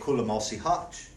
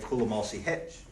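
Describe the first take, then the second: First: The last word has an 'a' vowel, like hutch. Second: The last word has an 'e' vowel, like hitch. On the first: This is how it is said in Tahlequah. "if you go to, to Tahlequah, you would say" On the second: This is how it is said in Bartlesville. "if you go to Bartlesville, you would say"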